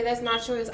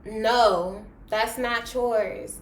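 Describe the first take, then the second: First: Said in the usual way. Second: Imitating a crying protest, slowed at the end; breaking down, played back in a retelling; mock tearful protest. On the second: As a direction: act out a tearful, drawn-out objection. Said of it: "I started crying".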